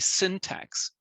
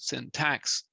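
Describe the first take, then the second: First: The stress is on the first syllable. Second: The stress is on the second syllable. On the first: The speaker calls it right. "It should be syntax" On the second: The speaker calls it wrong. "you need to pronounce the second syllable"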